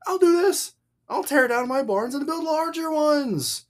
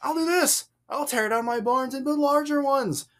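First: High-pitched mock-resolute fool; emphatic mockery. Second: High-pitched, exaggerated emphasis; emphatic mockery. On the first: Voicing the foolish rich man to the crowd, mockingly emphatic. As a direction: make an example of him with exaggerated emphasis. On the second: Shown as a demonstration. Showing the emphasis the paper hides, mocking the fool. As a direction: play up the fool's self-satisfied resolve. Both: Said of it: "You just can't hear the emphasis".

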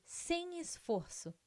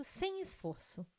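First: "sem esforço" slow, pitch raised on "sem"; stress on sem esforço. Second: Said in the usual way. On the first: Acted. Ad repeats claim for emphasis.

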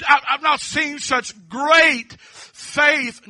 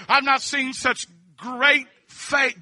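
First: Great hit hard, the line drawn out slowly; stress on great. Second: I've leaned on, slow and drawn out; stress on I've. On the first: Preacher repeating Jesus' words, pressing on great, slow. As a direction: land the word great with weight, slow. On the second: Preacher quoting Jesus with I've drawn out, slow. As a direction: lean into the word I've as he quotes Jesus. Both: Shown as a demonstration. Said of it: "everybody say great".

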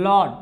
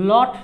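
First: লট with the t softened to ড; flapped t, the right way. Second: লট with a hard Bengali ট; hard t, the wrong way. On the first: Teacher shows students the right version, flapped t. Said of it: "ডর মতো কিন্তু উচ্চারণ হয়েছে". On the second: Teacher shows students the wrong version, hard t. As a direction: say লট with a crisp stopped t. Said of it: "লট না". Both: Shown as a demonstration.

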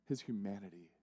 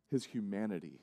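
First: Hushed repeat. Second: Said in the usual way. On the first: Acted.

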